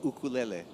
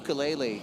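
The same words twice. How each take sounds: First: It is pronounced the way Brazilians say it. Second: It is pronounced the way Americans often say it. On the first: "in Brazil that you guys say ukulele" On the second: "in the U S a lot of times people say ukulele"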